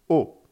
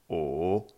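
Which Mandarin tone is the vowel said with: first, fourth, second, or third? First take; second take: fourth; third. First: It is said with the fourth tone. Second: It is said with the third tone.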